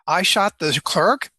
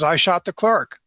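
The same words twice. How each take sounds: First: It sounds incredulous, like a disbelieving question. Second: It sounds flat, like a plain statement.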